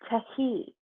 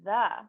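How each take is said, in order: First: Each letter is sounded out separately. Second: It is said whole, ending in uh. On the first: The speaker calls it wrong. "If you sound it out, it probably sounds like" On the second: The speaker calls it right. "So that is actually how you would pronounce the word the"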